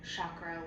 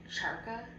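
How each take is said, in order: First: The r sound comes after the k. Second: The r sound comes before the k. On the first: The speaker calls it right. "she also says chakra" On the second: The speaker calls it wrong. "like charka"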